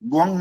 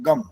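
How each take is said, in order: First: The syllable is a nasal 'gvang' sound. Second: The syllable is a plain 'gam' sound. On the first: The speaker calls it right. "ग्वंग नहीं बोल सकते" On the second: The speaker calls it wrong. "गम बोल देते हैं कुछ लोग"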